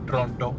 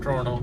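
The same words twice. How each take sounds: First: It is said with a typical Indian pronunciation. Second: It is said imitating a more native-like pronunciation. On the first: This is how Indians usually say it. "अपने Indians बोलते हैं usually" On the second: The speaker is trying to sound more correct. "थोड़े से सही बनने की try करते हैं"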